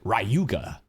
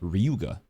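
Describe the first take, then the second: First: The name has an English pronunciation. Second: The name has a Japanese pronunciation. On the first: "we watch it in English dub, and they call it Ryuga" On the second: "There's a character named Ryuga in Japanese"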